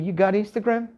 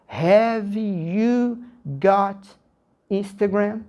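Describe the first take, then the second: First: It is said at a fast, natural pace. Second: It is said slowly and carefully.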